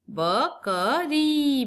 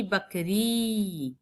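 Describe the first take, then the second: First: बकरी split slowly, higher; slow syllable split. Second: बकरी with the ई held long; slow, long ई. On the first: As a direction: spell out बकरी slowly, part by part. (बकरी को धीरे धीरे तोड़कर) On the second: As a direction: stretch the ई in बकरी. (बकरी में ई को लंबा खींचना) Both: Shown as a demonstration. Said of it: "लंबा होता है".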